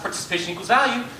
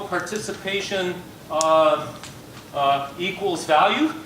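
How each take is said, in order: First: The phrase is said quickly without breaks. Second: The phrase is said slowly with hesitant breaks.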